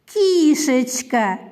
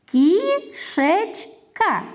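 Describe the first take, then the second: First: Кішечка as one word with a long, drawn-out first vowel; slow, connected Кішечка, lingering on the start; affectionate diminutive. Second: Кішечка in three slow beats, Кі, шеч, ка; counting out Кішечка syllable by syllable; split into syllables. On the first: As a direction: stretch the Кі in Кішечка slowly without breaking the word. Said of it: "Назвіть її ласкаво". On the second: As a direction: pause clearly between Кі, шеч and ка. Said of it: "скільки зараз складів". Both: Shown as a demonstration.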